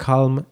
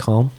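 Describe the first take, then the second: First: Said in the usual way. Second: Calm in an English accent, silent l, long a; Calm said the English way, kahm; English accent in Polish. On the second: Shown as a demonstration. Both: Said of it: "powiem z angielskim akcentem".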